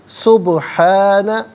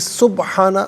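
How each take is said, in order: First: The b sound bounces back with an echo. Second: The b sound stays flat without an echo. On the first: The speaker calls it right. "यहाँ कलकला अदा होना चाहिए, यानी आवाज़ लौटती हुई महसूस होनी चाहिए" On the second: The speaker calls it wrong. "गलत है"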